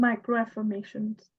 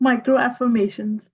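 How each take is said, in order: First: Bashful, softer voice; shy. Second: Fuller voice after a little laugh; opened up. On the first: Student repeating the term for the teacher, shy and soft. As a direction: answer timidly, keeping the volume down. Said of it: "इतना शर्मा के क्यों बोल रही हैं". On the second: Student teased by teacher for shyness, now speaking up openly. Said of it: "तो खुल के बोले ना". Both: Real, not acted.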